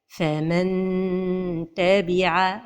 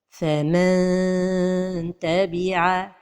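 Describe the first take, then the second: First: The tongue touches the palate, giving a clear n. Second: The tongue stays far away, like a long vowel. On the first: "c'est de toucher le palais" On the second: "trop éloigner la langue du palais ... comme si on prononçait un med"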